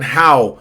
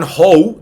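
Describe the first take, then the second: First: "how" with an open "ah-oo" glide; correct vowel. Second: "how" mispronounced as "hoe", loud; wrong vowel. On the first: Teacher shows learners what to say, correct vowel. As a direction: say "how" like Spanish "jau". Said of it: "digan how". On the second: Teacher warns learners off this sound, wrong vowel. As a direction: say "how" with a long O, like "ho". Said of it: "no digan how". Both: Shown as a demonstration.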